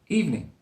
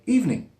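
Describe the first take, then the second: First: The word is said with two syllables. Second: The same.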